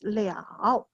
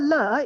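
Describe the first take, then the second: First: It is said as the longer syllable liao. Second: It is said as the short syllable le. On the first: The action can or cannot be done. "the pronunciation is different. The Chinese word is the same. Okay, pronounced as liao" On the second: The action has been completed. "the third le is the action has been completed"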